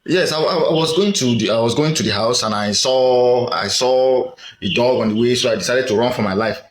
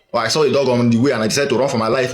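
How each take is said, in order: First: Said in the usual way. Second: Fast retelling in one breath; hurried version. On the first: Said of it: "Instead of the way you are speaking". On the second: Shown as a demonstration. Showing viewers how speech changes, rattled off quickly. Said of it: "you see how, uh, this speech went".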